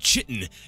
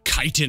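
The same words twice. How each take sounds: First: The word begins with a 'ch' sound. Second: The word begins with a 'k' sound. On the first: The speaker calls it wrong. "it's not chitin" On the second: The speaker calls it right. "it's k- uh, chitin apparently"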